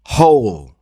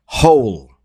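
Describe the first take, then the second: First: Said in the usual way. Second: Whispered hole, no voice; whispering. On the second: Shown as a demonstration. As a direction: breathe the word hole. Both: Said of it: "Repeat after me".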